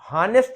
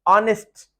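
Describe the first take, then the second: First: The word starts with an audible h sound. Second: The word starts with a vowel, no h sound. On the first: The speaker calls it wrong. "हानेस्ट नहीं पढ़ेंगे" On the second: The speaker calls it right. "इसका एच mute है, silent है"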